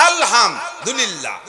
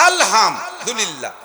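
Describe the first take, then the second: No difference in how they are said.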